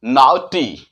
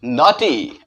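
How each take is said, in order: First: नॉटी mispronounced as "now-tee"; wrong "au" sound. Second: नॉटी with a pure open "aw"; correct "aw" sound. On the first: Teacher showing what not to say, mispronounced "now-tee". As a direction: say नॉटी with an "ow" glide in the first syllable. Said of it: "ये ना बोलेंगे". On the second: Teacher giving learners the right way, said "naw-tee". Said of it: "नहीं बोल के हम". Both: Shown as a demonstration.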